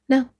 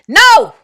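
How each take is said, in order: First: It is said a bit louder. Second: It is said loudly and firmly.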